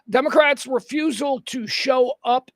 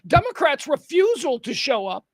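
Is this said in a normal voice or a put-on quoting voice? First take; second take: normal; put-on. First: It is said in a plain, normal voice. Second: It is said in a put-on quoting voice. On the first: The words are the speaker's own narration. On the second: The words are read as someone else's statement.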